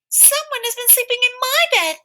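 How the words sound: It is said in a wee little voice. "he cried out in his wee little voice"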